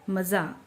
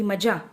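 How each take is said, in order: First: The middle consonant is a z sound. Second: The middle consonant is a j sound. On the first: The speaker calls it right. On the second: The speaker calls it wrong.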